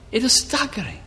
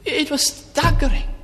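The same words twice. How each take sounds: First: Said in the usual way. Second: High, slow and stretched out; astonished emphasis; staggering. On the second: Real, not acted. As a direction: let the shock ring in the words. Repeated for emphasis.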